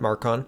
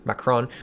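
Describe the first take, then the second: First: The r sound comes right after the first a. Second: The r sound comes right after the k sound. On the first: The speaker calls it wrong. "not Marcon" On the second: The speaker calls it right. "It's Macron"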